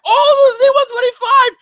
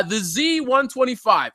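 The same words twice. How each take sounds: First: High, loud mock-excited squeal; overexcited fan. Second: Said in the usual way. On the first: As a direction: gush like a thrilled fan, hammed-up. Mimics an overexcited viewer.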